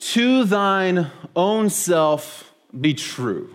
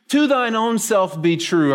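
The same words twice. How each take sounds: First: "To thine own self be true" said very slowly, each word weighed; slow solemn quote. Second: "To thine own self be true" repeated higher, at normal pace; lifted repeat of the quote. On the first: Pastor presenting the phrase to the congregation, slow and solemn. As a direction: lay the phrase down slowly and gravely. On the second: Pastor repeating the phrase to the congregation, higher and quicker. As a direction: repeat it brighter and higher, as a familiar saying. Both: Shown as a demonstration. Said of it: "here's the phrase".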